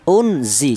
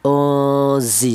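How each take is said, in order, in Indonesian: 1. Bunyi n dibaca dengan jelas. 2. Bunyi n samar dan sengau. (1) "jangan dibaca idhar. Artinya idhar itu jelas, jangan dibaca seperti ini. Unzi jangan" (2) "Jadi cara bacanya ozi seperti itu"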